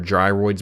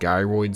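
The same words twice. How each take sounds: First: The first syllable sounds like the start of 'gyrate'. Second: The first syllable does not sound like 'gyrate'. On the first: The speaker calls it right. "I know they're gyroids because they gyrate" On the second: The speaker calls it wrong. "it's how I pronounced them growing up"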